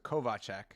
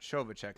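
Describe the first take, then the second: First: The name begins with a k sound. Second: The name begins with an sh sound. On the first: The speaker calls it right. "so Kovacek" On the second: The speaker calls it wrong. "not Shovacek"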